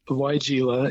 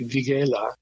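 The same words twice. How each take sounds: First: The word is pronounced the English way. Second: The word is pronounced the German way. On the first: This is how people here usually say it. "Weigela is what we call it" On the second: This is how German speakers say it. "in German it would be Weigela"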